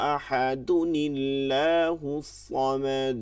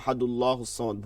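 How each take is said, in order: First: A short 'ni' sound links ahad to Allah. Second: Ahad runs straight into Allah with no added sound. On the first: The speaker calls it right. "নুনে কুতুনি" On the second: The speaker calls it wrong. "ভুল হবে"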